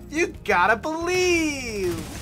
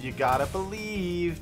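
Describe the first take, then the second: First: The line is delivered in an exaggerated, cartoony way. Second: The line is delivered in a calm, restrained way. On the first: The speaker calls it right. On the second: The speaker calls it wrong.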